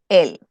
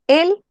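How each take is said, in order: First: "el" dropped low and falling to a close; falling tune on el. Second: "El" said high with a rising, questioning tune; "El" sung up high, then answered below. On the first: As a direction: bring "el" down and settle it. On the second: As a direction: lift "El" up like a question. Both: Shown as a demonstration. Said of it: "Tengo lo mismo".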